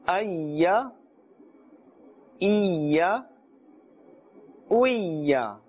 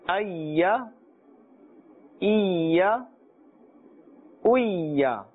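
No difference in how they are said.

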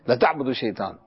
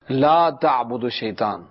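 First: The phrase is recited at a fast, hurried pace. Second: The phrase is recited at a slow, careful pace. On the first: Definitely worship Satan. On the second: Do not worship Satan.

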